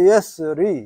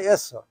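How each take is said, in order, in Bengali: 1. শব্দটি r-এর পরে একটি ee স্বরধ্বনি দিয়ে শেষ হয়। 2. শব্দটি ব্যঞ্জনধ্বনি r দিয়ে শেষ হয়। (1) "আসলে এটা হলো yes রি" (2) "এখন এখানে এটা উচ্চারণ হয় নাই হয়তো"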